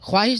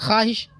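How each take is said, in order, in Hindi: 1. kh के बाद w ध्वनि आती है। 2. kh के बाद w ध्वनि नहीं आती।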